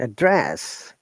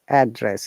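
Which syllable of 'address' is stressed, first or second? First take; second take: second; first. First: The stress is on the second syllable. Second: The stress is on the first syllable. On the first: It is a verb. "it should be down intonation to upper intonation" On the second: It is a noun meaning where you live. "when you are stressing on the first part, it becomes noun"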